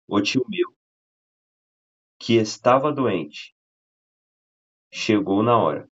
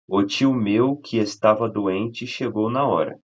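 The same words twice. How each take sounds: First: It is said with pauses around the clause. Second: It is said without pauses around the clause.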